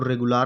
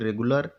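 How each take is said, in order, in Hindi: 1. अंतिम अक्षर में पूरा 'aa' स्वर है। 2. अंतिम अक्षर का स्वर छोटा है, लगभग न के बराबर। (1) "रेगुलर नहीं" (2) "छिपा होता है, दिखता नहीं है"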